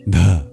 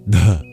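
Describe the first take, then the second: Both takes have the same delivery.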